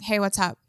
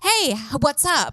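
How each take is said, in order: First: It is read plainly, like a normal line. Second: It is read with exaggerated, over-acted character.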